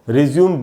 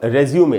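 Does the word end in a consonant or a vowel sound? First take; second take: consonant; vowel. First: The word ends on a plain m consonant. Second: The word ends with an ay vowel sound. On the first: The speaker calls it wrong. "रिज्यूम बिल्कुल नहीं बोलना है दोस्तों, एकदम गलत उच्चारण है" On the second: The speaker calls it right. "इसका उच्चारण होगा रेज्यूमे"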